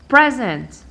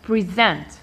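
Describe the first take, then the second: First: The stress is on the first syllable. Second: The stress is on the second syllable. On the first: It is the noun meaning a gift. "I stress the second syllable counting from the end" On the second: It is the verb meaning to introduce or offer. "I stress the first syllable from the end"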